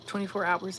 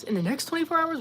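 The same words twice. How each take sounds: First: Said in the usual way. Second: Much higher, incredulous "twenty-four hours"; surprised question. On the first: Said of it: "reading a chat message". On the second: Real, not acted. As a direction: question it in disbelief. Surprised reaction to chat claim.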